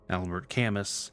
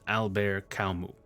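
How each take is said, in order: First: Camus is read as English spelling suggests. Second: Camus is said with a French pronunciation. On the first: The speaker calls it wrong. "even though it's spelled like this" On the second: The speaker calls it right. "his name is actually pronounced"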